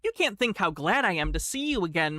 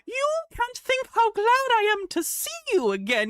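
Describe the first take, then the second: First: It is read in a plain, normal voice. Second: It is said in the Duchess's shrill voice.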